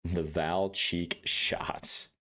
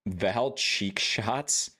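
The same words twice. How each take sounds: First: Val cheek shots drawn out, falling flat; slow deadpan. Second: Val cheek shots drawn out, rising; slow incredulous question. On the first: Repeating the name slowly. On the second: Reading the name slowly. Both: Real, not acted.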